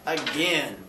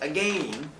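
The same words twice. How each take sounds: First: The second syllable rhymes with 'pen'. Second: The second syllable rhymes with 'lane'. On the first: It is the everyday pronunciation. "as opposed to just again" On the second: It keeps the rhyme with the line before. "why pronounce that last word as again"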